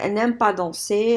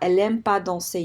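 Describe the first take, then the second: First: An n sound comes before 'aime'. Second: No n sound comes before 'aime'.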